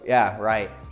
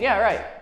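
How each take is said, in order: First: It is said in a sarcastic tone. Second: It is said in a sincere, literal tone.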